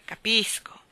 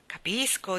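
First: Capisco sussurrato senza voce, allusivo; sussurrato con una smorfia. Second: Said in the usual way. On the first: A narrator's reading. (Capisco detto sottovoce, ammiccante) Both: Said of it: "fece una smorfia con la bocca".

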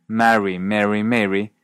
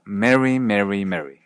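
First: "Marry, Mary, Mary" as marry, merry, mairy; distinct vowels. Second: "Mary, Mary, Mary" all three identical as merry; Canadian merger. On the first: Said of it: "Así, la frase". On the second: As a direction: give every "Mary" the same short e. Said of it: "suena simplemente como". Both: Shown as a demonstration.

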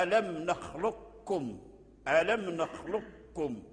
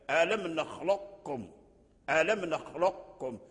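First: نخلقكم said with the qaf fully merged into kaf, slow; full assimilation demo. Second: نخلقكم said slowly keeping the emphatic qaf before kaf; partial assimilation demo. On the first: A teacher showing the full assimilation of qaf into kaf, slow demo. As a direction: say نخلقكم as nakhlukkum, no trace of qaf. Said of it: "يلفظ به هكذا". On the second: A teacher showing partial assimilation keeping the qaf quality, slow demo. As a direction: say نخلقكم with a trace of heavy qaf left. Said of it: "أي تبقي صوت القاف مع الكاف". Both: Shown as a demonstration.

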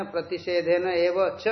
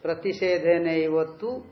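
First: Ending with च, not तु: "प्रतिषेधेन एव च"; text as printed. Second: Ending with तु, not च: "प्रतिषेधेनैव तु"; corrected reading. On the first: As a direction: read the printed word च at the end. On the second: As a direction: read the final word clearly as तु. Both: Shown as a demonstration. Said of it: "च को काट करके तु करिए".

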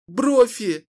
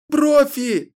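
First: High sobbing cry of the name; sobbing call. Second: Higher, louder wail of the name, breaking; louder sobbing call. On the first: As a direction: call out through tears. (рыдая зовёт Брофи) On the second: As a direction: cry the name out in full despair. (громче, с рыданием зовёт) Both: Acted. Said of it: "рыдая ... звала она".

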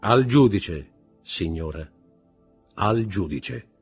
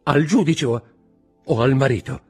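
First: Firm verdict, dropping after the first words; stern correction. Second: High, loud, faltering question; stammering. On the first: Husband answers his wife as judge, sternly. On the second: Wife asks whom she must answer, stammering. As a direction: stammer it out in a raised voice. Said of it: "balbettò la signora di Villefort". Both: A narrator's reading.

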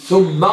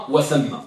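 First: ثم said as "thumma", with a u vowel; damma on the tha. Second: وثم said as "wa-thamma", with an a vowel; fatha on the tha. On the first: Teacher contrasting two particles, ثم with u as "thumma". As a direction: say ثم as "THUM-ma". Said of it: "ثم بالضم طبعًا". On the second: Teacher contrasting two particles, وثم with a as "wa-thamma". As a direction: say وثم as "wa-THAM-ma". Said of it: "بفتح المثلثة". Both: Shown as a demonstration.

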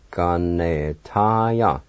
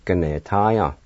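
First: "Ganetaya" stretched out very slowly; slow teaching take of "Ganetaya"; slow pronunciation. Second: Said in the usual way. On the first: Shown as a demonstration. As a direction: draw out every syllable of Ganetaya, joined together. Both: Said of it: "now I'll pronounce these words".

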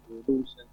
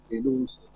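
The two takes are said the same way.

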